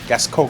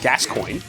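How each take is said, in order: First: The name ends in a 'konye' sound, Parisian style. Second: The name ends like English 'coin', with an oy sound. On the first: "if you want to go Parisian, then you go cogne" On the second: "in English, you pronounce it Gascoigne"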